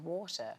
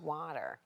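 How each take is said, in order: First: It is said with a British accent. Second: It is said with an American accent.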